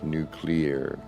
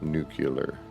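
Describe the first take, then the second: First: The word is said like new and clear. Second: The word is not said like new and clear. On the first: The speaker calls it right. "Like new and clear" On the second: The speaker calls it wrong. "Not nuclear"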